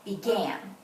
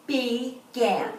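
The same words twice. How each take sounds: First: Said in the usual way. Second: "Began" split in two, with a gap after Be; "Began" in two separate, even beats; syllable by syllable. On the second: Shown as a demonstration. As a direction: clap out "Began" as Be, pause, gan. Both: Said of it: "see how many syllables it has".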